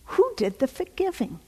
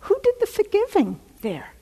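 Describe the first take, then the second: First: Said in the usual way. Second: High emphatic question. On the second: Real, not acted. Rhetorical question to congregation.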